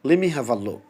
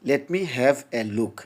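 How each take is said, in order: First: The words run together, with the t dropped. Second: Every word is said fully, with the t sounded. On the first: The speaker calls it right. "তারা বলবে লি me have a look" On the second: The speaker calls it wrong. "নেটিভরা কি এম- এভাবে বলবে? না"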